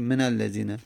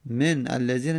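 First: من الذین linked as "menal-lazīna"; n with fatha. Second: من الذین split as "men, allazīna"; unlinked silent n. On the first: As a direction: run من into الذین with an a. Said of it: "میگیم من الذین". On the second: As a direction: stop on the n of من before الذین. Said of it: "الذین باز اله بعد از من". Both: Shown as a demonstration.

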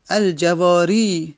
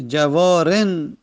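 First: الجواری slowly, with al- and a long -i; long final i. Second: جوارن slowly, ending in -en without the i; tanween replacing ya. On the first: Teacher giving the definite example, الجواری ending in long -i. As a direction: draw out the closing -i of الجواری. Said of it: "که اسم منقوصه". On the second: Teacher showing the indefinite form, جوارن with tanween -en. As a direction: drop the -i and close جوارن on a slow -en. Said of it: "یعنی یا میره". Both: Shown as a demonstration.

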